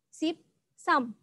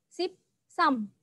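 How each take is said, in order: Both takes have the same delivery.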